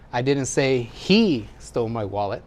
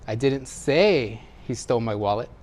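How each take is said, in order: First: The word 'he' carries the main stress. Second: The word 'say' carries the main stress. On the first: Someone else took the wallet. "It's not him, somebody else" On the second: It was communicated some other way than speaking. "Maybe I wrote it or gestured it"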